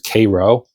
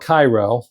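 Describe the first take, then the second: First: It is said the way locals pronounce it. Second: It is said the way locals do not pronounce it. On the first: The speaker calls it right. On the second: The speaker calls it wrong.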